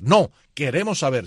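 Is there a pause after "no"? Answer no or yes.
yes. There is a pause after the word no. The answer is no, and the speakers want to know. "Después del no hay una coma"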